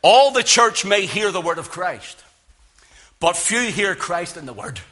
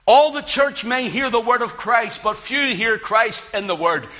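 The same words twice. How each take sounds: First: Measured quote read with weight on ALL and FEW; quoted saying. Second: Higher, rising "All" then falling "few"; repeated for emphasis. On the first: Preacher quoting a Puritan, stressing all and few. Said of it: "listen to what he said". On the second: Preacher repeats the saying to press it home, higher. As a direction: lift "All" high, then drop hard on "few". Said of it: "Here's the thing". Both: Shown as a demonstration.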